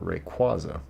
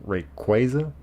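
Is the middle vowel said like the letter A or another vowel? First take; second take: other vowel; letter A. First: The middle vowel is not the letter-A sound. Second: The middle vowel sounds like the letter A.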